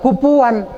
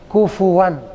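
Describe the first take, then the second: First: The middle consonant is a p sound. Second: The middle consonant is an f sound. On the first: The speaker calls it wrong. "Jangan kupuan" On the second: The speaker calls it right. "kayak kita ngucapin huruf F"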